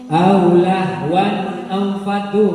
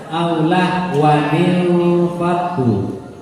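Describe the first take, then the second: First: There is no extra ni after the tanwin. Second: An extra ni links the tanwin to the next word.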